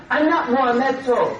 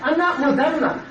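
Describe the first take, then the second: First: Muhammedto, said as Mo-HAM-ed-toe; mock mispronunciation. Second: Said in the usual way. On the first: Shown as a demonstration. Preacher mocking Dante's name, Muhammedto as Mo-HAM-ed-toe. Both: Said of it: "however they think they can pronounce that name".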